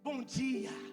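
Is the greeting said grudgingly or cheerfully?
cheerfully. It is said warmly and cheerfully.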